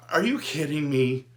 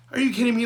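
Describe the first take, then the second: First: Said in the usual way. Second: Exasperated disbelief; incredulous outburst. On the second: Real, not acted. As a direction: throw it up high like you can't believe it. Incredulous rant, louder higher repeat.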